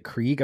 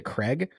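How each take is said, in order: First: "Krieg" said with a long ee, like "kreeg"; "Krieg" with the vowel of "see". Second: "Craig" said with a short e, like "kreg"; "Craig" with the vowel of "bed"; Krieg as Craig. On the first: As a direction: say "Krieg" to rhyme with league. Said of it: "would have not pronounced it Krieg". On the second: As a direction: say "Craig" to rhyme with leg. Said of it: "I would have pronounced it Craig". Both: Shown as a demonstration.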